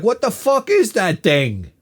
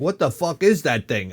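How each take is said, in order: First: Higher, slower, appalled; mock horrified. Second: Said in the usual way. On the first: Six-year-old him seeing the alien, mock horrified. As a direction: stretch it out in mock horror.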